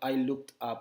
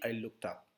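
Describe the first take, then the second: First: The words are said separately. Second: The words run together without a break. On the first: The speaker calls it wrong. "mereka tidak bilang I looked up the sky" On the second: The speaker calls it right. "tapi I looked up"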